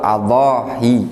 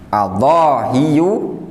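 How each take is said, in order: First: The final y sound is single. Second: The final y sound is doubled. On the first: "meringankan tanpa mentasydid" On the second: "bitasydidil ya"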